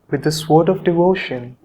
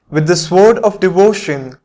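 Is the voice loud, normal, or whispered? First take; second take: normal; loud. First: It is said at ordinary speaking volume. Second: It is said loudly, in full voice. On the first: "In a normal voice" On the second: "first out loud"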